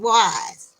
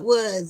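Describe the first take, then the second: First: The name is said with a long 'eye' vowel. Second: The name is said with a short 'uh' vowel. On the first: The speaker calls it right. "it's wise" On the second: The speaker calls it wrong. "It's not was"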